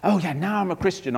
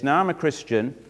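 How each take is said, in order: First: Higher, mildly showy claim; a touch of mock pride; worldly boasting. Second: Said in the usual way. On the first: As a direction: brag lightly about yourself. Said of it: "in the world's way". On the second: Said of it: "Actually, the truth is".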